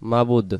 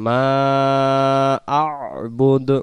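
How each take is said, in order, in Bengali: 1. 'ma'-র পরের গলার শব্দটি বাদ পড়ে। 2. 'ma'-র পরে একটি গলার শব্দ শোনা যায়। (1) "এই শব্দটা ভুল হতে পারে মাবুদ যদি হয়ে যায়" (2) "এমন উচ্চারণ হবে মা আ'বুদ"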